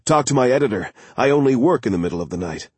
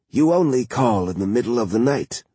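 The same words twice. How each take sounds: First: Eager night-owl energy; alert and excited. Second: Drowsy, just woken by the phone; groggy, half-asleep murmur; sleepy voice. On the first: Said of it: "was alert, almost excited". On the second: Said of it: "In a sleepy voice". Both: A narrator's reading.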